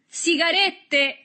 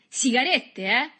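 First: Very high, slow, drawn-out yell; triumphant shout. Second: High, loud taunt; triumphant cry. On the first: Boy shows off captured cigarettes, shouting high and long. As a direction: announce the prize in a long shout. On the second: Boy waves captured cigarettes, crying out tauntingly. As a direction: call it out as a gloating question. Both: A narrator's reading. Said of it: "gridò".

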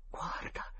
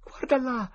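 First: Whispered "Guarda"; hushed whisper of "Guarda". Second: "guarda là" much higher and louder, falling on "là"; high urgent "guarda là"; urgent cry. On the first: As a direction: barely breathe "Guarda". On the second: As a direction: burst out "guarda là" pointing. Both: Acted. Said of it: "sussurrò Tom".

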